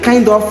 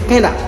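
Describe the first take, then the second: First: The two words are said fully and separately. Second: The two words run together into one. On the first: "Au lieu de kind of" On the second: "ils disent kinda"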